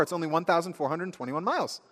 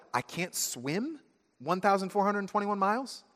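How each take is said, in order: First: Eager, higher, with a falling "miles"; proud announcement. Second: High, rising on "thousand" in disbelief; "one thousand four hundred twenty-one miles?" as a horrified question; you realizing you cannot swim that far; dismayed realization. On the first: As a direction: announce "twenty-one miles" as good news. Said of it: "And they blurt out". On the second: Realizing the distance is hopeless. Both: Acted.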